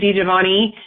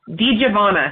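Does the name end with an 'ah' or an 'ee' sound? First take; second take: ee; ah. First: The name ends with an 'ee' sound. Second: The name ends with an 'ah' sound. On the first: The speaker calls it wrong. "I've heard it pronounced that way too" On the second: The speaker calls it right. "it absolutely is an A at the end"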